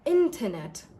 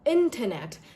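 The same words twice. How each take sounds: First: The T after N is softly pronounced. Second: The same.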